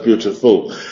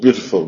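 First: The final syllable 'ful' is stressed. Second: The final syllable 'ful' is unstressed. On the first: The speaker calls it wrong. "no es beautiful" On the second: The speaker calls it right. "la pronunciación natural de beautiful es beautiful"

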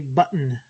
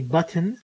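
First: No vowel follows the t at all. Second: A short schwa vowel follows the t. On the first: "there is an elision of the vowel" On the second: "put a schwa there after the T"

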